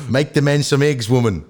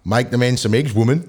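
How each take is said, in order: First: Half-successful New Zealand accent. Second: Half-successful Australian accent. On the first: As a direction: try a quick Kiwi accent. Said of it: "go New Zealand again". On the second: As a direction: try a light Aussie accent. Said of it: "Australian, go". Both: Shown as a demonstration.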